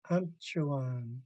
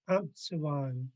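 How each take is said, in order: First: The middle consonant is a ch sound. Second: The middle consonant is a ts sound. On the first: The speaker calls it right. "until I heard the elders saying" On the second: The speaker calls it wrong. "I used to pronounce this"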